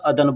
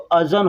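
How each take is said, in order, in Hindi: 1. बीच का व्यंजन d ध्वनि है। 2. बीच का व्यंजन z जैसी ध्वनि है। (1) "लेकिन लोग बोलने के लिए अदन, अदन बोलते हैं" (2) "ज़ाल और नून तो अज़न होता है"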